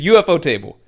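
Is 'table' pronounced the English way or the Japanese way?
English. Table is said as the English word table. "We say it in English"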